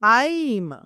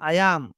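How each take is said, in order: First: The words merge into one short syllable. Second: Two separate full words are said. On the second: "ఐ యామ్ దాన్ని short form చేశాను"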